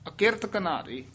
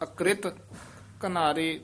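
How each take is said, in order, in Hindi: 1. एक स्वर k और r को अलग करता है। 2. k और r एक संयुक्त व्यंजन बनाते हैं। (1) "ਇੱਥੇ ਰਾਰਾ ਪੂਰਾ ਹੈ" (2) "ਜਦੋਂ ਹੇਠਾਂ ਰਾਰਾ ਹੋਵੇ ਤਾਂ"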